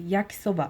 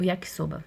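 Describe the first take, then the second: First: Yakisoba said in one flat go, no stressed syllable; Japanese way. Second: Said in the usual way. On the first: Shown as a demonstration. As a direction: Yakisoba calmly, all syllables even, Japanese style. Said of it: "como se você tivesse tranquilinha". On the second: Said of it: "não vai ter nenhuma entonação diferente".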